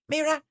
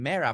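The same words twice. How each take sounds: First: The name is said at a very high pitch. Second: The name is said at a normal pitch. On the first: The speaker calls it right. "like very high pitch" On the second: The speaker calls it wrong. "I was saying Mira for so long"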